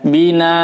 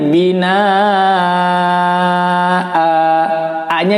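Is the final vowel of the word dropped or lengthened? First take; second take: dropped; lengthened. First: The final vowel is cut off. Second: The final vowel is held for two beats. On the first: The speaker calls it wrong. "banyak yang membaca di sini dimatikan" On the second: The speaker calls it right. "a-nya dibaca tapi tidak panjang-panjang"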